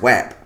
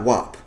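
First: The vowel rhymes with cap, as in map. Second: The vowel rhymes with top, like 'wop'. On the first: The speaker calls it right. "it's WAP" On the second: The speaker calls it wrong. "It's not WAP"

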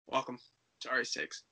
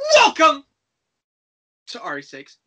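First: It is said flatly with low energy. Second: It is said bigger with high energy.

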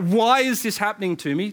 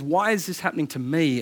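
First: The stress is on "why". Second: The stress is on "me".

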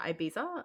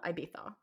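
First: The middle consonant is a plain s or z sound. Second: The middle consonant is a lisped th sound. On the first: The speaker calls it wrong. "instead of Ibiza" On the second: The speaker calls it right. "it's why they say Ibiza as well"

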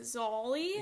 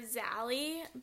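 First: The name is said in the local accent. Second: The name is said in an American accent. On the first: The speaker calls it right. "that's how her family pronounces it" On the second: The speaker calls it wrong. "we came in hot with our American accents"

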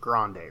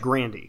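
First: The name does not end in an 'ee' sound. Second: The name ends in an 'ee' sound. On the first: The speaker calls it wrong. "they don't actually pronounce the last name Grande" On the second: The speaker calls it right. "It's like Grandy"

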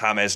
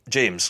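First: The name is said with a Spanish pronunciation. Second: The name is said with an English pronunciation. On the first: This matches how the player's own people say it. The speaker calls it right. "I think it's James" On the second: This is the local anglicised version of the name. The speaker calls it wrong. "not James"

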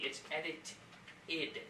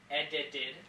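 First: The middle consonant is a clear T sound. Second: The middle consonant sounds like a soft D.

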